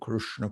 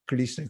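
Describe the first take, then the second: First: The consonant after K is an r sound. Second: The consonant after K is an l sound. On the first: "the way somebody in South India or North India says it" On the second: "some cultures they pronounce R like L"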